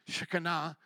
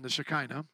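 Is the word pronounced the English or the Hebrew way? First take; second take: Hebrew; English. First: The word has a Hebrew pronunciation. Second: The word has an English pronunciation. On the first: "I think that's how you pronounce it with the Hebrew" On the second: "thank you for the English version"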